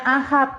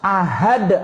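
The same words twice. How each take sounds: First: The word is said with the careless sound. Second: The word is said with the careful sound. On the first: The speaker calls it wrong. "Nggak boleh ngucapnya ahad" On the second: The speaker calls it right. "Ngucapnya harus ahad"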